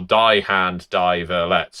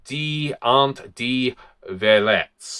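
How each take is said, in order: First: It is pronounced with English-style sounds. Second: It is pronounced with German-style sounds. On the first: "if you really wanted to get ang- English" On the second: "I'm probably screwed that pronunciation up"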